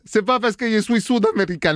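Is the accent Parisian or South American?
South American. It is spoken with a put-on South American accent. "j'ai oublié l'accent"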